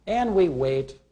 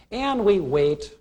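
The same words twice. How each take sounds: First: Said in the usual way. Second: Drawn out, slow and waiting; slow impatient wait. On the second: Shown as a demonstration. To the class, acting out waiting at a restaurant, slow and drawn out. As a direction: stretch it out like a long wait. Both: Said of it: "we're getting a little impatient".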